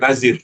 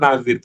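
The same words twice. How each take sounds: First: The middle consonant is a 'z' sound. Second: The middle consonant is a soft 'th' sound. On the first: The speaker calls it wrong. "bukan nazir, bukan za ya" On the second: The speaker calls it right. "yang tepat itu nazir ... tapi zal"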